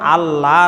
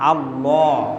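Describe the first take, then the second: First: The L sound is thin and light. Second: The L sound is full and heavy. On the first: The speaker calls it wrong. "আল্লাহ না" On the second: The speaker calls it right. "মোটা করে পড়তে হয়"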